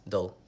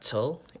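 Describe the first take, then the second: First: The syllable starts with a soft D sound. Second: The syllable starts with a crisp T sound. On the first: The speaker calls it right. "it's dull" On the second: The speaker calls it wrong. "it's not tull"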